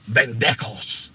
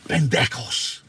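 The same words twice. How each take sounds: First: Pendejos with a rolled Spanish lilt; Spanish pronunciation. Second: Pendejos said slowly for the class to repeat; Spanish pronunciation. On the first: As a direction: say pendejos the Spanish way, firm and punchy. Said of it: "it's how you say it". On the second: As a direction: model Pendejos for the listeners to copy. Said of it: "Say it with me". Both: Shown as a demonstration.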